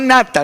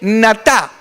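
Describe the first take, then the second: First: The stress is on the first syllable. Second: The stress is on the second syllable. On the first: The speaker calls it wrong. "no nata" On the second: The speaker calls it right. "con acento en la segunda"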